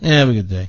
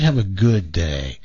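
First: It sounds flat and insincere. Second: It sounds warm and sincere. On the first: The speaker does not really mean the wish. The speaker calls it wrong. "his was kind of" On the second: The speaker really means the wish. The speaker calls it right. "You can kind of tell when somebody means it"

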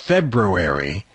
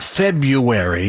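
First: The first R sound is clearly pronounced. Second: The first R sound is dropped. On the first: The speaker calls it right. "there's that R in there, that second R" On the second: The speaker calls it wrong. "it's not February"

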